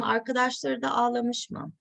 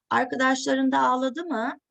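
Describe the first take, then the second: First: Ağlamış mı with a level, falling end, no rise; question without rising tune. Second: Ağladı mı with the pitch rising on mı; a proper question, lifting the end; rising question tune. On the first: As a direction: ask it flatly, pitch dropping on mı. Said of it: "but not in a rising intonation". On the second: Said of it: "he asks it in a rising intonation". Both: Retold or imitated.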